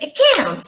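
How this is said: It is said with an American vowel. "Americans say"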